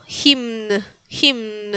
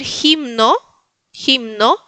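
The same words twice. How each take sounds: First: "Himn" as jimn, no vowel after n; soft, falling "Himn" with m and n sounded; final O dropped. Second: "himno" as JIM-no, h like j; learner's stepping stone "himno", rising end; with final O. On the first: ("Himn" sin la o final) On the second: ("himno" con jota y o final) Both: Shown as a demonstration. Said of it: "irle sacando la O".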